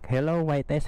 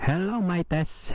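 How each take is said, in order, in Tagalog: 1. Na-record sa loob ng helmet na nakabukas ang visor. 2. Na-record sa loob ng helmet na nakasara ang visor. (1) "Naka-open ngayon yung visor natin" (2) "i-close naman natin"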